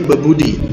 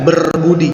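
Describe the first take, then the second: First: The r sound before b is dropped. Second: The r sound before b is pronounced. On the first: The speaker calls it right. "huruf R itu lebur, bebudi" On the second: The speaker calls it wrong. "jadi enggak berbudi"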